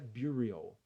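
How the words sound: The word is said with an English pronunciation. The speaker calls it wrong. "mas em inglês é"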